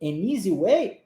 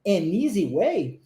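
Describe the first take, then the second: First: An easy way rising on way; An easy way, rising question tune; question intonation. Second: An easy way linked as a-neasy way, slow; An easy way said with linking, unhurried; English model phrase. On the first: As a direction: lift way at the end as a question. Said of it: "entonação de pergunta". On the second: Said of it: "Próxima frase". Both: Shown as a demonstration.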